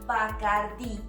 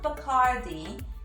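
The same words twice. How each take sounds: First: The final syllable with the I is stressed. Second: The final syllable with the I is unstressed. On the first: The speaker calls it right. "it is Bacardi" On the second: The speaker calls it wrong. "do not accentuate the I"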